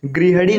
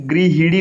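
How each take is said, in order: First: गृहिणी said as "grihanee"; wrong middle vowel. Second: गृहिणी said as "grihinee"; correct middle vowel. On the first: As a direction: put a short "a" after the h in गृहिणी. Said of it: "नहीं". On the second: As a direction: put a clear "i" after the h in गृहिणी. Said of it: "लिखा जाता है". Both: Shown as a demonstration.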